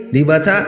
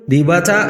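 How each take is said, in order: Both takes have the same delivery.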